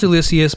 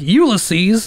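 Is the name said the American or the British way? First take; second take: American; British. First: The name is said the usual American way. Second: The name is said the way British people say it. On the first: This is the correct way to say the name. The speaker calls it right. "It's for sure pronounced Ulysses" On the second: This is how the British say the name. The speaker calls it wrong. "all these fucking tea and crumpet motherfuckers are like Ulysses"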